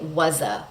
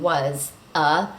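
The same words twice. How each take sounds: First: The two words are linked with no pause. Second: There is a pause between the two words. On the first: The speaker calls it right. "We say was a" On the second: The speaker calls it wrong. "We don't stop between was, a"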